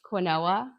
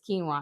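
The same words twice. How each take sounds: First: It is sounded out letter by letter. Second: It is said as keen-wah. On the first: The speaker calls it wrong. "I just pronounced it phonetically how I saw it" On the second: The speaker calls it right. "I didn't realize it was quinoa"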